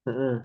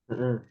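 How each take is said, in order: Both takes have the same delivery.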